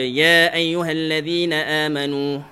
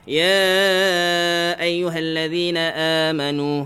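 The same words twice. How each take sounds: First: The opening 'ya' is held briefly, two counts. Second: The opening 'ya' is stretched, four or five counts. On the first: It follows a different transmission route of recitation. "guru ni ajar dua" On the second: It follows the usual route of Hafs from Asim via Shatibi. "dia baca empat harakat atau lima"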